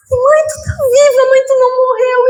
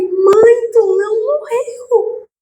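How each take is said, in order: First: Overjoyed cry. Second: Stunned disbelief. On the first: Daughter reunited with her mother, high and overjoyed. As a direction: burst out with joy through tears. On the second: Daughter seeing her dead mother alive, slow and hushed in disbelief. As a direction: breathe it out slowly, unable to believe it. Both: Retold or imitated.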